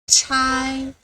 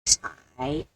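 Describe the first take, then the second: First: The pitch stays high and level. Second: The pitch dips low, then rises.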